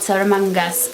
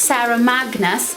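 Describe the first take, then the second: First: The second word is said with n before g. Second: The second word is said with g before n. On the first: The speaker calls it wrong. "not Sarah Mangus" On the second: The speaker calls it right. "so it's Sarah Magnus"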